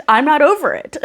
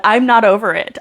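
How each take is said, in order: First: I'm not over it, pitched higher and stressed on "over"; second take of "I'm not over it", leaning hard on "over"; emphatic repeat. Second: Said in the usual way. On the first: Real, not acted. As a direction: repeat it with more feeling, "over" pushed up high.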